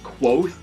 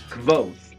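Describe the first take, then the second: First: It starts with a kw sound. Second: It starts with a k-v sound. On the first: This is how some fans say the name. "some fans of it pronounce it Quoth, like Quoth the Raven" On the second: This is how the author says the name. "pronounces the V instead of making it a U sound"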